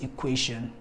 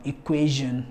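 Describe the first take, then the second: First: EQUATION with sh, "i-KWAY-shun"; voiceless sh. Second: EQUATION with a buzzing zh, "i-KWAY-zhun"; voiced zh. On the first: Teacher showing what not to say, EQUATION with sh. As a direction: make the TION of EQUATION an unvoiced shun. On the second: Teacher giving the correct form, EQUATION with zh. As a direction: voice the TION of EQUATION as zh. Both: Shown as a demonstration. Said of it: "not equation".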